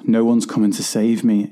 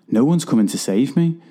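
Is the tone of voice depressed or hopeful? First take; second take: depressed; hopeful. First: The voice sounds low, flat and depressed. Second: The voice sounds lifted, energised and hopeful. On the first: There is no hope of rescue. "in a depressed tone of voice" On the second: It is a call to take action oneself. "hang on a minute"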